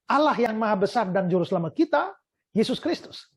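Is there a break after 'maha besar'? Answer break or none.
none. The phrase runs on without a break after 'besar'. One person is described by two titles. The speaker calls it right. "bisa dibaca dengan cara yang seperti ini"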